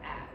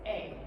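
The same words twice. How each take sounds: First: The vowel is a short, different sound. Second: The vowel sounds like the letter's name. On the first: The speaker calls it wrong. "not A" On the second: The speaker calls it right. "the vowel will say its actual name"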